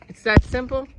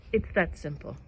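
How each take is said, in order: First: Loud, higher, stunned disbelief on simple; amazed question. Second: Said in the usual way. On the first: Retold or imitated. Asking the dead cousin, louder in retold disbelief. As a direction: ask it as if it can't be that easy. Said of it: "I said". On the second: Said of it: "He's like".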